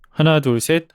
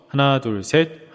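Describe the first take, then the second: First: The voice sounds dry, without added reverb. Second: The voice sounds echoey, with added reverb.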